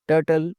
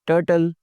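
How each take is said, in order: Both takes have the same delivery.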